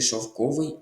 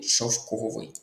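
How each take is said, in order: First: Шовковий stressed on the second syllable; correct stress on шовковий. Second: Шовковий with the stress misplaced off the second syllable; wrong stress on шовковий. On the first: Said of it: "Наголос на другий склад". (шовковий з наголосом на другому складі) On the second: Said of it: "Тут наголос неправильний у слові". (шовковий з неправильним наголосом, не на другому складі) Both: Shown as a demonstration.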